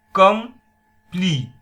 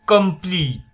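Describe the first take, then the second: First: COMPLETE split, com... plete, loud; "complete" in two separate punched beats; syllable by syllable. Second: COMPLETE said whole, high and loud; "complete" enunciated firmly, unbroken; clear model word. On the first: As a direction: put a long gap inside "complete". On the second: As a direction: call out "complete" as one word. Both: Shown as a demonstration. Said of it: "आपणाला उच्चार ऐकायला येतोय".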